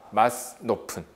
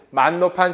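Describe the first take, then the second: First: The first word ends with an audible s sound. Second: The first word ends without an audible s sound. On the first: This is the accurate old reading. The speaker calls it right. "정확하게 어떻게 돼요?" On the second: This is the casual reading used earlier. The speaker calls it wrong. "아까 우리는 맛 높은 소리 그랬지만"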